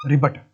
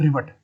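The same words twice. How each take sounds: First: रिवेट said as ribet, with b instead of v; shopkeeper's ribet. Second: रिवेट said with a clear v sound, the proper way; correct rivet. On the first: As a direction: say रिवेट with a b, the hardware shop way. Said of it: "वो ये pronounce करते हैं उसको". (रिवेट को व की जगह ब से, रिबेट बोलिए) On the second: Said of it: "असल लफ्ज़ क्या है?". (रिवेट को साफ़ व की आवाज़ से, सही उच्चारण में बोलिए) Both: Shown as a demonstration.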